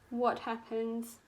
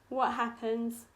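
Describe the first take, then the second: No difference in how they are said.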